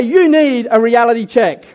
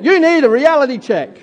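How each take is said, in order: First: Said in the usual way. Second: Sassy, pointed reality check; with attitude. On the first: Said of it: "Turn to someone and say". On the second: Shown as a demonstration. Pastor urging the congregation, said with attitude. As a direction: say it like they really need it. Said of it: "say it with a bit of attitude".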